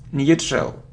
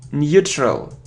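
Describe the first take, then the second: First: The first syllable sounds like new. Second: The first syllable sounds like new.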